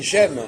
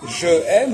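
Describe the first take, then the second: First: The vowel of je is dropped before aime. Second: The vowel of je is kept before aime. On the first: The speaker calls it right. "on dit j'aime" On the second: The speaker calls it wrong. "on va dire je aime"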